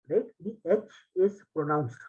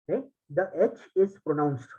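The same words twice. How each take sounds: No difference in how they are said.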